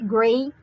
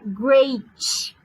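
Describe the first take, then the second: First: The final T is light and barely released. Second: The final T is pushed into a 'ch' sound. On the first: The speaker calls it right. "você pode falar o T" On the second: The speaker calls it wrong. "mas você não pode falar great"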